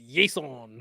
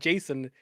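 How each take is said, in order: First: The name begins with a Y sound. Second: The name begins with a J sound. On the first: The speaker calls it right. "it's Yason. Gotta say it right" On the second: The speaker calls it wrong. "It's not Jason"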